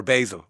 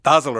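First: "basil" with a long A, as in bay; American long-A "basil"; basil as BAY-zil. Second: "Basil" with a short A, like dazzle; short first vowel in "Basil"; basil as BAZ-il. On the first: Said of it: "It's the American way". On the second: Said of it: "playing around with the pronunciation". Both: Shown as a demonstration.

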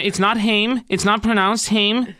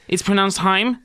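First: "Haim" said to rhyme with "name"; wrong pronunciation. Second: "Haim" said to rhyme with "time"; correct pronunciation. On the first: Host showing [name] the wrong "Haim", an "ay" vowel. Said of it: "Make sure you pronounce them Haim". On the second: Host showing [name] the proper "Haim", rhyming with "time". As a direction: say "Haim" with a long "eye" vowel. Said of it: "like it rhymes with time". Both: Shown as a demonstration.

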